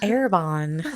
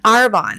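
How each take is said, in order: First: An extra vowel is added between the A and R. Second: No vowel is added between the A and R. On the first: The speaker calls it wrong. "I always want to call it Arabon, but it's not Arabonne" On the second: The speaker calls it right. "It's Arbonne"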